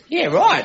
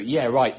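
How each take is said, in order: First: It is said friendly, with interest. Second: It is said sarcastically, with disbelief.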